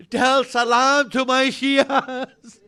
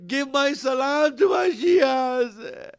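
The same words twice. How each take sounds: First: Slow, sob-laden "salam"; slow tearful plea. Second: Slow wailing cry on "salam"; crying shout. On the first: Preacher to mourners, slow tearful plea. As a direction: hold back the sob on "salam". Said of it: "repeated with crying". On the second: Preacher to mourners, breaking into a wail. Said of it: "cry shout". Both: Acted.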